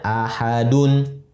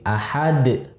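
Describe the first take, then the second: First: The word ends with a full -un ending. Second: The word stops on a bare final d. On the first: This is the full form used when reading on. "Aslinya ahadun" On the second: The reader stops at this word. "kita berhenti ahad"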